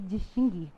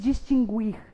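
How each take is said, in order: First: The u after the g is silent. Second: The u after the g is sounded. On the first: The speaker calls it right. "o U não deve ser pronunciado" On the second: The speaker calls it wrong. "Não se diz distinguir"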